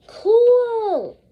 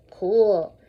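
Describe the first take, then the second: First: High, drawn-out "Cool". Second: Low, falling "Cool". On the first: Teacher modelling the word for the class, high and drawn out. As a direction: sing out "Cool" high and falling. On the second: Teacher modelling the word again, low and calm. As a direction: drop "Cool" down low and easy. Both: Shown as a demonstration. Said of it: "First I say, then you say".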